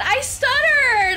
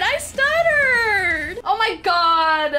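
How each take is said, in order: First: Said in the usual way. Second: Drawn-out, laugh-choked words; laughing, slow, stretched-out. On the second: Real, not acted. Crying-laughing.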